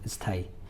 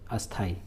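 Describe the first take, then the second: First: An 'i' vowel is said before the 's'. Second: An 'a' vowel is said before the 's'. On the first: The speaker calls it right. "मैं आधा सा के पहले ई का उच्चारण कर रहा हूँ" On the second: The speaker calls it wrong. "यदि बहुत लोग इसको बोलते हैं अस्थाई"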